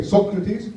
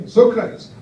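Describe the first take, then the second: First: "Socrates" said the Dutch way, SOK-ruh-tees with a short open o; Dutch pronunciation. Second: "Socrates" said the American way, with a long SOH and a pitched-up ending; American pronunciation. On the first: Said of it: "or as the Dutch would say". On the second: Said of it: "Or as the Americans say". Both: Shown as a demonstration.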